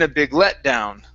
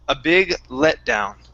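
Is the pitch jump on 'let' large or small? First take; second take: large; small. First: Pitch jumps high on 'let', then drops far down. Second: Pitch rises slightly on 'let', then falls gently. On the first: The speaker calls it wrong. "you came up on let and then down" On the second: The speaker calls it right. "it's not as high and we don't go as far down below"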